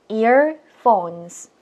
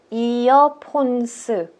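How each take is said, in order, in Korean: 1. 이 단어는 두 음절로 발음해요. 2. 이 단어는 네 음절로 발음해요. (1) "이 음절이에요" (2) "저희는 earphones 사음절로 읽게 된다는"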